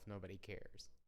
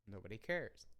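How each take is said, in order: First: It is said in a dejected, discouraged tone. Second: It is said in a light, carefree tone. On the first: No one listens, so the effort feels pointless. "I think to myself" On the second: No one is watching, so there is freedom to do anything. "in a different inflection"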